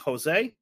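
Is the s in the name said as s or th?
s. The s is a plain hissing sound. "Mexican Spanish should be Jose"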